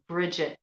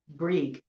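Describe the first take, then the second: First: The name is said in its modern form. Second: The name is said in its old Irish form. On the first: "that would be um, a modern a modern pronunciation" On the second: "old, you know, Irish Gaelic, it would be Brig"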